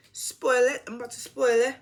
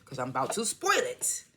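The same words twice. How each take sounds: First: Attempted Jamaican accent, higher; playful Jamaican accent, spoil it. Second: Said in the usual way. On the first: Shown as a demonstration. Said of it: "that was my attempt at doing a Jamaican accent".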